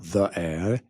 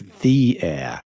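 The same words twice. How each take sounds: First: 'The' has a short, reduced 'thuh' vowel. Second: 'The' has a long 'thee' vowel. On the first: The speaker calls it wrong. "it's not the air" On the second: The speaker calls it right. "It's the air"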